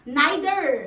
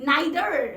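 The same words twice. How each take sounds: The two takes are said the same way.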